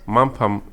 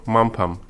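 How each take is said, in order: No difference in how they are said.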